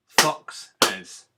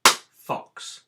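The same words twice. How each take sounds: First: "Foxes" loud in two clapped beats, fox-es; clapped syllables. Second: "Fox" said loudly as one clapped beat; clapped syllable. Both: Shown as a demonstration. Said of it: "Okay, ready?".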